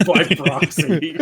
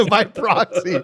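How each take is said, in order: First: Slow, laughing "By proxy.". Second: Slow, laughing "By proxy." with a laugh on it. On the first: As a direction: chuckle the words "By proxy." out slowly. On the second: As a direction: echo "By proxy." through a laugh. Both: Real, not acted. Players laugh at joke.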